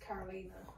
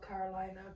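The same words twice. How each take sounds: First: The name is pronounced the European way. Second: The name is pronounced the American way. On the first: "in Europe it's Carolina" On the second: "She says she was American, so she called herself Carolina"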